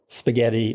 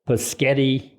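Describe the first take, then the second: First: The word begins with an s sound. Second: The word begins with a p sound. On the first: The speaker calls it right. "for spaghetti" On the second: The speaker calls it wrong. "odd pronunciations like Paschetti"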